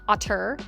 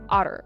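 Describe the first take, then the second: First: The middle consonant is a crisp t sound. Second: The middle consonant sounds like a soft d. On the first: The speaker calls it wrong. "otter is not otter" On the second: The speaker calls it right. "it has D's in there"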